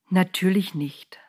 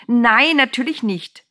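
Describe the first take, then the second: First: Calm, gentle agreement; gentle angel. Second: High, loud "Nein", drawn out; loud, scandalised denial; indignant interjection. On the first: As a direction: say "Natürlich nicht" slowly and tenderly. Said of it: "sagte der Engel so sanft". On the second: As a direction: burst in with emphatic protest. Woman interrupts angel with outcry. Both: A narrator's reading.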